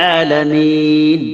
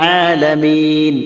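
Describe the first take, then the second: The two takes are said the same way.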